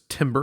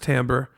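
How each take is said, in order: First: The first syllable sounds like 'tim'. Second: The first syllable does not sound like 'tim'. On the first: The speaker calls it wrong. "often mispronounced as timbre" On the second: The speaker calls it right. "but it's pronounced timbre"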